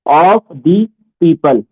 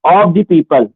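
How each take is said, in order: First: "of the people" word by word; slow dictation. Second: Said in the usual way. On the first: Real, not acted. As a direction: say "of the people" slowly, a gap after each word. Teacher repeats slowly for note-taking. ("of the people" धीरे-धीरे, एक-एक शब्द लिखवाते हुए)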